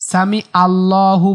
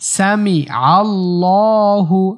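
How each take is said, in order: First: The vowel after 'sami' starts plainly, without 'ain. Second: The vowel after 'sami' starts with throaty 'ain. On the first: The speaker calls it wrong. "সামি আল্লাহু বলা যাবে না" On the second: The speaker calls it right. "এখানে আইন।"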